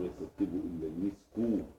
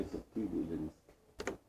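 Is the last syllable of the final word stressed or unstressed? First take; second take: stressed; unstressed. First: The last syllable of the final word is stressed. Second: The last syllable of the final word is unstressed.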